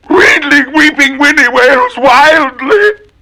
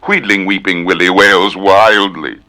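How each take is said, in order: First: High, slow wailing cry. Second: Said in the usual way. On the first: Acted. Willie wailing wildly, high slow wail. Twister wailed in voice.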